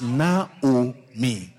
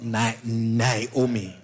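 First: No extra vowel sound comes before the final vowel. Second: An extra vowel sound comes before the final vowel. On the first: The speaker calls it right. "It's Naomi" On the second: The speaker calls it wrong. "There's no I before the last I. It's not Naomi"

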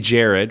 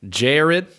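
First: A plain accent with a simple first vowel. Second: A Southern accent with a gliding first vowel. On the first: "Like we say Jared" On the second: "I'm going to try to take a stab at a Southern accent here"

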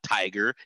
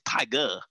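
First: The word ends with an 'er' sound. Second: The word ends with an 'ah' sound. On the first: The speaker calls it wrong. "It's not tiger" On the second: The speaker calls it right. "you drop off the ER, you replace it with the A"

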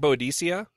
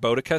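First: The name ends with a longer -cea ending. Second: The name ends with a shorter -ca ending. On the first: This is the form the speaker has been using. "I've been saying Boadicea" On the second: This is the more common form heard elsewhere. "I've heard Boadica since"

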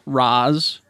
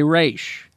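First: The name ends with a z sound. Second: The name ends with an sh sound. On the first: The speaker is outside the group and shows disrespect. "Some characters pronounce Raz" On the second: The speaker belongs to the group and shows respect. "while others say Raish"

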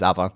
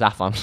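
First: The middle consonant is a v sound. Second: The middle consonant is an f sound. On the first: This is how Welsh people say the name. "if you're Welsh, it's Avan" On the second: This is how the speaker personally says the name. "to me it's Afan"

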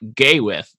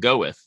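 First: The first syllable sounds like 'gay'. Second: The first syllable sounds like 'go'. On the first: The speaker calls it wrong. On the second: The speaker calls it right. "you pronounce it go with"

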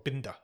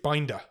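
First: The name is pronounced the German way. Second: The name is pronounced the English way.

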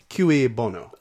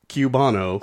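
First: The first word is not said like 'cue'. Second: The first word is said like 'cue'. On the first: The speaker calls it right. "No, this is Cue Bono" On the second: The speaker calls it wrong. "if you were a stagehand, you would cue [name]"

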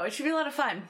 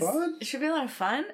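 First: The voice falls at the end. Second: The voice rises at the end. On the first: The speaker states it with confidence. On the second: The speaker sounds unsure, as if asking. "that sounded like a question"

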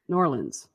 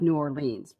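First: The name is squeezed into two quick syllables. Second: Each syllable of the name is said fully. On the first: This is how local people say it. "They pronounce it Norlands" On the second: This follows the written form literally. "doesn't sound like New Orleans"

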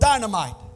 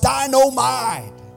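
First: It is said in the speaker's ordinary voice. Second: It is said in an imitated catchphrase voice. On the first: "for our English word dynamite" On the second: "more affectionately called by the great philosopher J.J. on Good Times"

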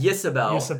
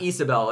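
First: The name begins with a y sound. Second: The name begins with a plain vowel sound. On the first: The speaker calls it wrong. "So I read it as Yisabel" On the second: The speaker calls it right. "It's Isabel"

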